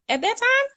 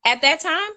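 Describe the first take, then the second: First: High incredulous question. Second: Rising disbelief, higher up; incredulous question. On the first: Repeating it to the co-host, higher and more incredulous. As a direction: push the disbelief up higher. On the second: Doubting the co-host's fifteen years, high incredulous question. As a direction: ask it half in disbelief. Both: Real, not acted.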